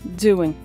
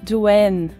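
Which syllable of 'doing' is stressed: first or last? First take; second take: first; last. First: The stress is on the first syllable. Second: The stress is on the last syllable. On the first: This is how it sounds in conversation. "A entonação da palavra doing na hora de conversar é" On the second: This is how it sounds in the song. "Nessa música, a entonação vai para o final"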